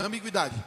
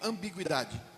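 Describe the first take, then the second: First: It is said very fast. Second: It is said at a normal pace.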